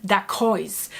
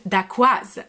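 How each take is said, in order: First: "dacois" said the English way, slow; English pronunciation. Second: "dacquoise" said slowly the French way; French pronunciation. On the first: Retold or imitated. Reacting to a French dessert's misread name, English pronunciation. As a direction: say "dacois" as an English reader would. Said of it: "would be a very English way to pronounce it". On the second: Shown as a demonstration. Showing how the dessert's written name is pronounced, French pronunciation. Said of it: "the only way that it could be pronounced".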